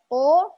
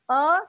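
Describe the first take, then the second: First: The vowel is said with rounded, pushed-out lips. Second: The vowel is said with spread, smiling lips. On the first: "bukan juga ko" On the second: "Bukan e"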